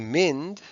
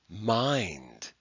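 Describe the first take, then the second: First: The vowel is short. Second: The vowel is long. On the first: The speaker calls it wrong. "we don't say mind" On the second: The speaker calls it right. "we say mind"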